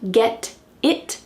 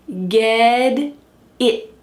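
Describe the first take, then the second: First: The T in get sounds like a clear T. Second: The T in get sounds like a D. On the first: The speaker calls it wrong. "Not get it" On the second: The speaker calls it right. "but ged, ged, ged it"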